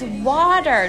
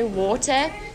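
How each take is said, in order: First: It is said with an American accent. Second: It is said with a South African accent.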